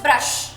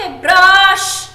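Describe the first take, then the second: First: ब्रश with a quick short vowel; ब्रश said low with no stretching. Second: ब्रश with a drawn-out "aa"; ब्रश exaggerated long, like "braash"; wrongly long vowel. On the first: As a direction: keep ब्रश short and simple. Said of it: "simple short बोलते हैं". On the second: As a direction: stretch the vowel in ब्रश loudly. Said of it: "आप ये नहीं बोलते". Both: Shown as a demonstration.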